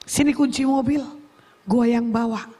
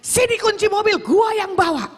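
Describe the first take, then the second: First: Said in the usual way. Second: Higher-pitched, stubborn demand; insistent. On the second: Retold or imitated. Arguing with younger sibling over car keys, insistent. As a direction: re-enact arguing hard for the keys. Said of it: "Sambil saya ngotot sama adik saya".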